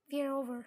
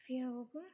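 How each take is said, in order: First: Loud, final "We're over."; firm declaration. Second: "We're over?" rising at the end; disbelieving question. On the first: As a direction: say "We're over" forcefully as a closed statement. Boyfriend declares the breakup. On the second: She echoes it in disbelief. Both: Acted.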